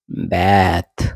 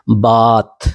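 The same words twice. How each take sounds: First: बैथ lower, with the vowel of cat; American "ae" sound. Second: बाथ with a long open "ah"; British "ah" sound. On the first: Teacher contrasts the vowels, American pronunciation. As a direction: say बैथ as "baet". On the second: Teacher contrasts the vowels, British pronunciation. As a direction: say बाथ as "baht". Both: Shown as a demonstration. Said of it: "आ और ए याद रखना".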